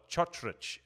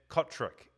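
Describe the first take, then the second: First: The surname is said with a Croatian-style pronunciation. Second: The surname is said with an English-style pronunciation. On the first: The speaker calls it right. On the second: The speaker calls it wrong.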